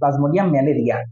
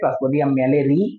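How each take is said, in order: First: The last word ends with a 'ria' sound. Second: The last word ends with a 'ree' sound. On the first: This form is used to help remember it. "কিন্তু আমরা মনে রাখবো plasmodium ম্যালেরিয়া" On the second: This is the actual pronunciation. "উচ্চারণ ম্যালেরি আসলে"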